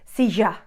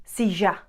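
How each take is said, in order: First: It is said in an Argentinian accent. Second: The same.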